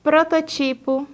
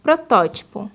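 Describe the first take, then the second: First: Prototipo stressed on TI; wrong stress. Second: Protótipo stressed on TÓ; correct stress. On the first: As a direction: push ti in Prototipo. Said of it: "quando o correto é protótipo". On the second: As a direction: hit tó in protótipo. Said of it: "o correto é protótipo". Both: Shown as a demonstration.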